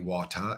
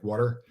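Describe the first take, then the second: First: It is said in a heavy non-American accent. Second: It is said in an American accent. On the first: "you get the very heavy water" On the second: "we say water, like water"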